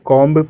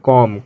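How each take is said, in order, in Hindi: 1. अंत की b आवाज़ बोली जाती है। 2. अंत की b आवाज़ साइलेंट है। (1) "क्या आप भी इसे कॉम्ब कहते हो?" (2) "बी साइलेंट होता है"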